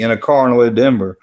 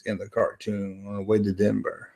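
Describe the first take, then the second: First: "car" punched louder; correcting a misreading. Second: Said in the usual way. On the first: Real, not acted. Streamer rereading a chat message correctly, stress on "car". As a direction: lean hard on "car", moving along briskly. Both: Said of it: "I can't read".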